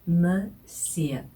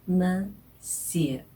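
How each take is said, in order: No difference in how they are said.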